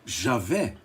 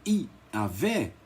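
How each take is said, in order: First: "Javé" with the J voiced as zh, not as I; Javé with Portuguese J. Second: "Iavé" with the Latin J sounded as a vowel I. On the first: Lecturer shows the name some adopted, "Javé" with a zh-sounding J. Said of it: "colocar o som do J nosso". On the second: Lecturer corrects the J reading, "Iavé" starting with an ee sound. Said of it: "teria o som de". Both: Shown as a demonstration.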